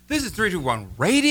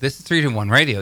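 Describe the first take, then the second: First: It is said in a cheerful, lively tone. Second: It is said in a sad, somber tone.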